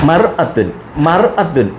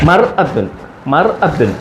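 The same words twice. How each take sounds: Both takes have the same delivery.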